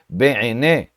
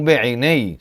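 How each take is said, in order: First: The word ends in a plain open e vowel. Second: The word ends in an ei diphthong. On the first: The speaker calls it right. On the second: The speaker calls it wrong. "não Be'inei"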